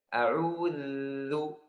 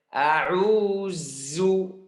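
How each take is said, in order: First: The middle consonant is a soft voiced th sound. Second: The middle consonant is a buzzing z sound. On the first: The speaker calls it right. "Ujung lidah harus keluar sampai kalau ada orang di depan saya bisa lihat" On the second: The speaker calls it wrong. "Dibaca uh, ujung lidah di dalam"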